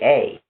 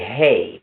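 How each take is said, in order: First: The word begins with no h sound. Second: The word begins with an h sound. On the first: "they say a" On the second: "they don't say hey"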